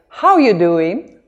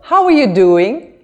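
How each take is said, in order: First: The R in 'are' is dropped. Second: The R in 'are' is pronounced.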